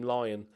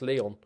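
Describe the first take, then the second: First: The name sounds like 'Lion', with an eye vowel. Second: The name sounds like 'Leon', with an e vowel. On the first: This is the speaker's own chosen nickname. "I'm going to call him Lion" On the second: This is arguably the proper pronunciation. "you could argue that's Leon"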